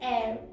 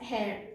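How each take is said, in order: First: The word begins with no H sound. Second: The word begins with an H sound. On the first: The speaker calls it right. "The actual word is air. ... ഇവിടെ H സൈലന്റും ആണ്" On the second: The speaker calls it wrong. "some people have said it as hair"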